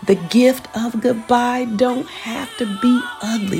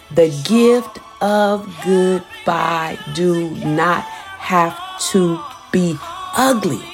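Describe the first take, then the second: First: It is said at a faster pace. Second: It is said slowly and deliberately.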